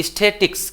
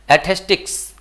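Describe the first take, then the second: First: स्थेटिक्स said "is-THE-tiks", higher; corrected pronunciation. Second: एथेस्टिक्स starting "ay", with an s before the t; mispronounced word. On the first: Shown as a demonstration. Teacher corrects the slip, corrected pronunciation. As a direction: open स्थेटिक्स with "is-the", no s before the t. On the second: Real, not acted. Teacher slips on the word before saying sorry, mispronounced. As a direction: misplace the s in एथेस्टिक्स. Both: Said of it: "sorry".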